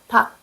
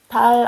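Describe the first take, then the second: First: The word ends in a k sound. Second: The word ends in an l sound. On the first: The speaker calls it right. "닭 말해요" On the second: The speaker calls it wrong. "달 아니요"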